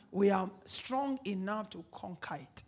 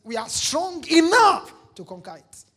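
First: Said in the usual way. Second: Louder, higher, confident; bold declaration. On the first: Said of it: "talk like this". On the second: Shown as a demonstration. Preacher showing the congregation how to speak, bold and loud. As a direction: say it like you mean it. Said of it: "You need to learn to talk like this".

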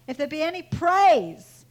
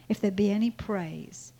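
First: "praise" swelling louder, then falling; stress on praise. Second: Said in the usual way. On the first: Shown as a demonstration. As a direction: repeat it with a big, emphatic "praise". Verse repeated with force on praise.

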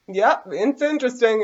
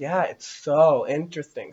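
First: High, drawn-out mock interest; exaggerated inner reaction. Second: Slow, gushing fake fascination; playing overly obsessed. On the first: Podcaster airing what they felt about the Dianetics video, exaggerated mock interest. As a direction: voice what you really felt, high and stretched. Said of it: "I didn't say it like that. That's what I was feeling". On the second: Podcaster playing along with the nun lady, overly fascinated. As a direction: linger on it like an obsessed follower. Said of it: "playing the overly, like, obsessed weird freak".

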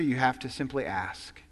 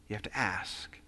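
First: Said in the usual way. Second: You have to ask whispered, lower and softer; whispered emphasis. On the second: Shown as a demonstration. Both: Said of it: "repeated for emphasis".

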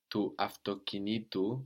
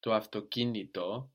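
First: Avtokinitu with the stress pulled onto ti; accent on ti. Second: Avtokinito with the stress on ki; accent on ki. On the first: Teacher showing the genitive pulling the stress. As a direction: shift the stress toward the ending in avtokinitu. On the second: Teacher contrasting stress before the genitive ending. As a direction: keep the stress third from the end in avtokinito. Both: Shown as a demonstration. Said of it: "pull the accent towards it".

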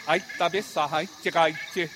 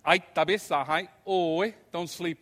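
First: Louder, higher Piraha words; Piraha bedtime phrase. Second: Slow, louder Piraha warning; Piraha bedtime warning. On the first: Lecturer demonstrating the Piraha bedtime saying. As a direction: voice the Piraha goodnight expression. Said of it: "a great expression". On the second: Lecturer repeating the Piraha warning about tarantulas. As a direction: voice the Piraha words slowly. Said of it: "they might say". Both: Shown as a demonstration.

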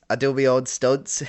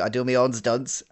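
First: Proud laughing brag; laughing shout. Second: Said in the usual way. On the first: Acted. Host brags to old colleague, laughing loudly. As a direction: boast it louder through a laugh.

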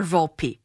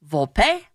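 First: "Volpe" as "VOL-pee", lower and falling; anglicised pronunciation. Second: "Volpe" as "VOL-pay", rising; Italian pronunciation. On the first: Host giving the player the second option, Americanised pronunciation. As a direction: offer "Volpe" with a PEE ending. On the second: Host asking the player his preference, Italian pronunciation first. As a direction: offer "Volpe" with a PAY ending, as a question. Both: Shown as a demonstration. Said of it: "which pronunciation do you prefer".

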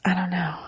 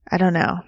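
First: A soft breathless whisper; unsure, whispering it under the breath; whispered doubt. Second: Said in the usual way. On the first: Real, not acted. Doubts Rebel Wilson, trails off.

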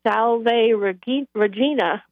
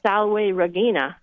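First: "Salve Regina" as SAL-vay reh-JEE-na; church pronunciation. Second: "Salve Regina" as SAL-way reh-GHEE-na; W sound in "Salve", hard g in "Regina"; classical Latin pronunciation. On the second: Contrasting Latin with church usage, "Salve Regina" with hard g. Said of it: "but the Latin is". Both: Shown as a demonstration.

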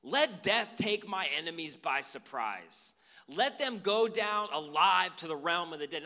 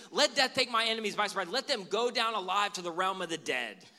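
First: Slow and loud, each curse weighed out; slow, loud, earnest prayer of vengeance; fervent imprecatory prayer. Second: Fast and loud, spitting the curse out; fast, louder, heated cursing prayer; rushed fiery prayer. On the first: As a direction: pray it like a solemn curse, slowly, full voice. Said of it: "started praying like this". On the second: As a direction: rattle it off in hot anger. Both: Pretend.

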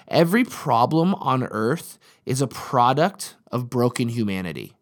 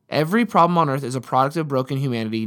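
First: Slow, weighed statement; first measured telling. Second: Quicker and a bit stronger; repeated with more push; faster emphatic restatement. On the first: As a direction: lay it out slowly, word by word. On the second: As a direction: drive the point home on the repeat. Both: Shown as a demonstration.

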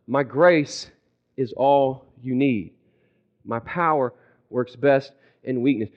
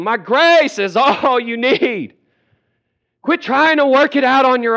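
First: Lower, slow, patient voice; calm divine reply. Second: Hollering. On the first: God giving the same third answer, calm and patient. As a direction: repeat it evenly, with gentle spacing. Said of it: "His response the third time to you is the same". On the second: Jesus hollering at a stubborn believer, high holler. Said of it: "Jesus has been hollering at you". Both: Acted.

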